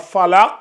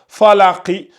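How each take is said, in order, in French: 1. Le mot finit sur une consonne sans voyelle. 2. Le mot se termine par une voyelle brève. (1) "quand on va la transformer en soukoun" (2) "cette voyelle là"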